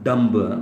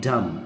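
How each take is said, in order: First: The final b is sounded. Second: The final b is silent. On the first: The speaker calls it wrong. "Not डम्ब, that's often mispronounced" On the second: The speaker calls it right. "This should be डम डम"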